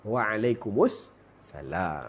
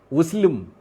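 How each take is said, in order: First: The greeting is said fully with every syllable. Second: The greeting is clipped to a short form. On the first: The speaker calls it right. "jawab elok-elok lah" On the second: The speaker calls it wrong. "tak jadi Wuslim"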